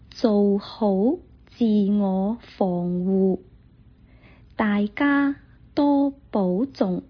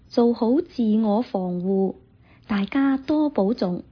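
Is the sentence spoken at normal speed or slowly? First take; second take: slowly; normal speed. First: The sentence is spoken slowly and carefully. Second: The sentence is spoken at normal conversational speed. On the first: "再来一次" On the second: "来一次正常速度的"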